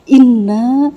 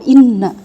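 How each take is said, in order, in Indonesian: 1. Vokal akhir na dibaca panjang. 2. Vokal akhir na dibaca pendek. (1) "itu dibacanya na-nya itu panjang" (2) "Kalau inna pendek"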